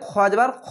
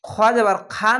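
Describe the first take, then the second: First: The final vowel is not a clear 'aa'. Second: The final vowel is a clear open 'aa'. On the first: The speaker calls it right. "বলতে হবে খ যাবার খ" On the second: The speaker calls it wrong. "খ যাবার খা না বলে"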